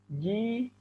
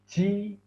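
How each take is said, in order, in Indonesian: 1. Konsonan dilepaskan dengan bersih, tanpa napas yang mengalir. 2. Konsonan dilepaskan dengan napas yang terdengar mengalir. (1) "yang benar adalah" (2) "ada nafas yang mengalir seperti ini"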